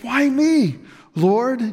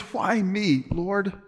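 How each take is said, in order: First: It sounds grateful and amazed. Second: It sounds bitter and complaining.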